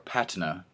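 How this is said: The word is said in a British way. "if you're British"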